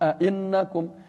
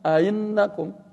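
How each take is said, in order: First: The second glottal stop is fully pronounced. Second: The second glottal stop is softened and eased. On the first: "qiraah hafaz yang kita baca ini yang paling sulit" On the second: "Makanya mereka sebagian mentashil"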